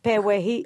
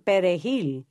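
First: The R sounds soft and W-like, not trilled. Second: The R is strongly trilled. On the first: The speaker sounds Haitian. "more like a W" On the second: The speaker sounds Dominican. "And we would say"

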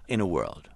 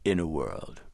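First: It is said in a plain, ordinary voice. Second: It is said in a deep, dramatic trailer voice.

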